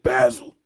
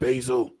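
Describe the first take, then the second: First: Basil is said in a non-American way. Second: Basil is said in the American way. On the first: This is how other countries say it. "In some other countries, they pronounce it basil" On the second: This is how Americans say it. "here in America, we pronounce it basil"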